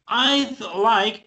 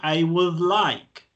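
First: The words 'I would' are contracted to 'I'd'. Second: The words 'I would' are said in full. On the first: The speaker calls it right. "it sounds more natural to say I'd" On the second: The speaker calls it wrong. "Normally, we don't say, I would like"

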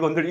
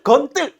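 First: The second syllable starts with a plain consonant. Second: The second syllable starts with a tense consonant. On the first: The speaker calls it right. "여러분들 건들 건들 건들 이거잖아요" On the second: The speaker calls it wrong. "이렇게 하는 친구 있나요? 없지요"

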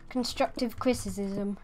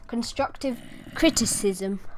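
First: The s sounds are stumbled over and unclear. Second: The s sounds are said clearly and carefully. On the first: The speaker calls it wrong. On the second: The speaker calls it right.

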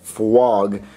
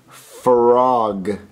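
First: The r sound is close to a w. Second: The r sound is a clear r. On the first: The speaker calls it wrong. "you're saying it frog" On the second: The speaker calls it right. "you got to say frog"

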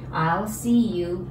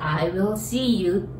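First: 'I will' is contracted into one syllable. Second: 'I will' is said as two full words. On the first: It is a polite way to speak to acquaintances. "このI'll はI will の省略形です" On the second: It is the most polite way, for superiors or clients. "略さずI will see you、これが丁寧にの丁寧な言い方です"

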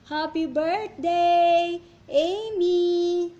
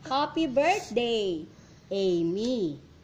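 First: It is said with strong, excited feeling. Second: It is said calmly, without strong feeling.

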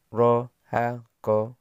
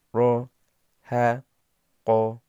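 First: The syllables are read quickly in succession. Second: The syllables are read slowly and separately. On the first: "Dibaca cepat" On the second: "Yang pertama pelan"

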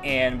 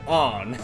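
First: The vowel sounds like the 'a' in 'can'. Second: The vowel sounds like the 'o' in 'on'. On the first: "I always want to say Anne because it's spelled Anne" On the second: "they pronounce it On"

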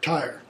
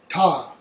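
First: The r after the vowel is pronounced. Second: The r after the vowel is dropped.

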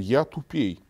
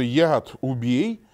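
First: The consonants blur together into a different phrase. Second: The consonants are pronounced clearly and separately. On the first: It sounds like saying one is dumber. The speaker calls it wrong. "происходит редуцирование согласных" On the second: It asks to destroy the poison. The speaker calls it right. "вместо «яд убей»"

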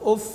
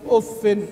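First: The word ends in an a vowel. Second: The word ends in an i vowel plus n. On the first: "يعقوب فذكره بفتح الفاء" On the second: "قرأ بالتنوين والخفض"

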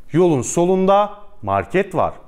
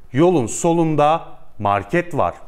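No difference in how they are said.

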